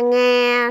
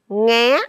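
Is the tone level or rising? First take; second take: level; rising. First: The syllable is said on a level tone. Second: The syllable is said on a high rising tone.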